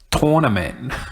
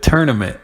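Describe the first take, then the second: First: The first syllable sounds like 'tor'. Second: The first syllable sounds like 'tur'. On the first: This is how other people now say it. "people say tor- tournament" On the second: This is how the speaker always said it. "I always thought ... tur- the tournament"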